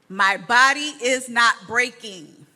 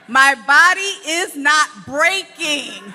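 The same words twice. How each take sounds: First: It is said with little enthusiasm. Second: It is said with more enthusiasm.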